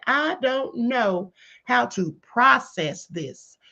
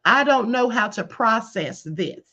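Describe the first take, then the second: First: Slow, pointed repeat. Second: Said in the usual way. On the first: Retold or imitated. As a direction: drag out "I don't know how to process this" word by word. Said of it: "He didn't ask any of those questions". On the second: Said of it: "Do y'all hear this?".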